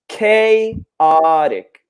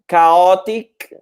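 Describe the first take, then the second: First: The A vowel is a long A sound. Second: The A vowel is not said as long A. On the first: The speaker calls it right. "So that A is a long A, just like the letter in the alphabet" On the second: The speaker calls it wrong. "It's not chaotic"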